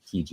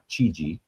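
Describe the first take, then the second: First: The name begins with a hard k sound. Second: The name begins with a soft ch sound. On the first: The speaker calls it right. "the C H makes it a hard C sound when you followed by an I" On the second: The speaker calls it wrong. "and not"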